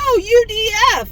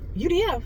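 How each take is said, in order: First: The letters are said slowly and separately. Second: The letters are run together quickly. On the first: It is spelled out as separate letters. The speaker calls it right. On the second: It is taken as one word, a name. The speaker calls it wrong.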